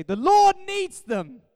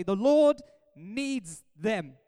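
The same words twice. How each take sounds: First: Slow, high, very loud proclamation; mock-dramatic shout. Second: Very slow, weighty, drawn-out words; solemn scripture reading. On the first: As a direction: holler it as an over-the-top excuse. Comic retake as excuse to shoppers. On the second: Acted. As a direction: read the verse out slowly and firmly. First reading of the verse.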